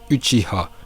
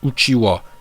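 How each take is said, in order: First: The last syllable starts with an h sound. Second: The last syllable starts with a w sound. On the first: The speaker calls it right. "c'est bien Uchiha" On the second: The speaker calls it wrong. "d'après certains c'est Uchiwa. Eh bien non, vous vous trompez"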